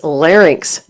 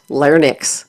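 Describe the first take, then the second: First: "larynx" said as LARR-inks; "larynx" ending in -inks; correct pronunciation. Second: "larynx" mispronounced slowly as LAR-niks; "larynx" with n moved before the vowel, ending -niks; mispronunciation. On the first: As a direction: say "larynx" with the ng sound before the final ks. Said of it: "The correct pronunciation is". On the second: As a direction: swap the sounds in "larynx" to say lar-nix. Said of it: "not larynx". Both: Shown as a demonstration.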